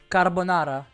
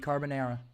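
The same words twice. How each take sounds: First: It is said in a Spanish accent, rolled r. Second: It is said in an American accent. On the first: "in Spanish, since they do roll the roll the R's" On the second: "in American, it would be carbonara"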